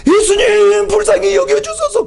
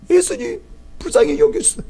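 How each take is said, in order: First: High, loud desperate plea; pleading cry. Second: High, rising plea for mercy; desperate pleading. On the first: Mother crying out to Jesus after him, high and loud. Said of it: "조그맣게 말한 것이 아니라". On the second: Mother calling after Jesus, high pleading rise. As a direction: keep calling after him, begging. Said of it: "부르는 소리가 너무나 간절한". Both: Retold or imitated.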